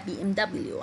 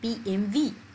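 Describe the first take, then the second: First: The last letter is said as 'double-u'. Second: The last letter is said as 'vee'. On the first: It is the English way of saying it. "انا بقولها بي ام دبليو عشان انا بنطقها بالانجليزيه" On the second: It is the German way of saying it. "بتتقال بي ام في ... في المانيا"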